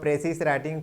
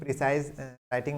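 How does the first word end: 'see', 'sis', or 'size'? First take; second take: sis; size. First: The first word ends with a hissing 'sis' sound. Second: The first word ends with a long 'size' sound. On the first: "कुछ लोग इसका गलत उच्चारण करते हैं" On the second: "कुछ लोग इसका गलत उच्चारण करते हैं"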